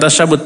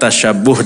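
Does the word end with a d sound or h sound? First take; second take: d sound; h sound. First: The word ends with a d sound. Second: The word ends with an h sound. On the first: The speaker calls it wrong. "bukan tasyabud" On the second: The speaker calls it right. "tasyabuh dengan H ya"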